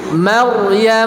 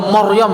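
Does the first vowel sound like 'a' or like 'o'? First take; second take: a; o. First: The first vowel is a clear, thin 'a'. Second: The first vowel is thick, sounding like 'o'. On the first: The speaker calls it right. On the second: The speaker calls it wrong.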